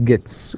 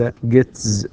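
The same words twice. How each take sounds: First: "gets" ending in a clean ts; voiceless final S. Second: "gets" forced into a buzzing tz; wrongly voiced ending. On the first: Teacher showing how it is pronounced, voiceless ending. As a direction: finish "gets" with an unvoiced s. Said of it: "ننطقها gets وليس gets". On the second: Teacher showing how it is not said, voiced ending. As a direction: end "gets" on a z sound. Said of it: "وليس gets". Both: Shown as a demonstration.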